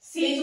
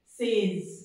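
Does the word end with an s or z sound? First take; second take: s; z. First: The word ends with an s sound. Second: The word ends with a z sound. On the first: The speaker calls it wrong. "सेज मत पढ़ लेना" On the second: The speaker calls it right. "एस की आवाज ज बन जाएगी"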